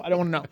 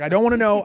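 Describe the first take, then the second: First: Said in the usual way. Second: Louder, higher first refusal; firm refusal. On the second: Retold or imitated. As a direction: cut it off firmly. Walking away, repeats refusal.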